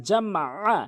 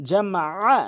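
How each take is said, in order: No difference in how they are said.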